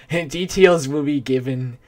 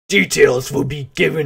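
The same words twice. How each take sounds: First: It is read in a normal voice. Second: It is read in a put-on voice.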